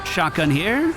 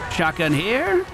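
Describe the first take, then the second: No difference in how they are said.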